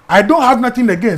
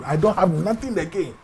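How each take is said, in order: First: "don't" punched, the line said louder; emphatic repeat. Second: Said in the usual way. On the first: Shown as a demonstration. Repeating he was broke, with stress on "don't". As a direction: hit "don't" hard, stressing the point.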